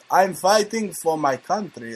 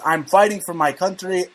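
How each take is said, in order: First: It is said in a put-on Russian accent. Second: It is said in the speaker's ordinary accent.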